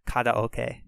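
It is said with Japanese-style sounds and rhythm. The speaker calls it right. "it's actually karaoke"

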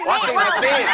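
It is said with a Thai Isan accent. The speaker calls it wrong.

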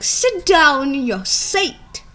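It is said in an exaggerated put-on accent. This is a joking imitation, not how teachers really sound. The speaker calls it wrong. "They don't have that kind of accent"

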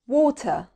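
It is said with a British accent. "هننطق الأول البريتش أكسنت"

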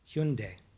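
The name is said with a Korean-style pronunciation. This is how people from the brand's home country say it. "If you are from Korea, it's Hyundai"

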